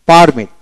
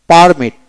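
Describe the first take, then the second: No difference in how they are said.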